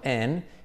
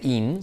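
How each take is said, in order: First: The vowel is closer to an 'e' sound. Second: The vowel is a clear 'i' sound. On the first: The speaker calls it right. "sino en" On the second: The speaker calls it wrong. "no se dice in"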